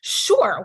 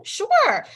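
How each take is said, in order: First: Said in the usual way. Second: Sure. pitched high and bright-eager; a sudden high, over-keen Sure; mock eager yes. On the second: Eager second answer to request.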